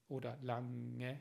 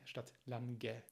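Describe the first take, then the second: First: The ng has no separate g sound. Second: A strong g sound follows the ng. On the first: The speaker calls it right. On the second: The speaker calls it wrong.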